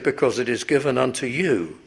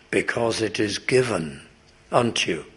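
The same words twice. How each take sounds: First: The word given is not specially stressed. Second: The word given is strongly stressed. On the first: "as you naturally read these words" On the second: "so that you notice the word given"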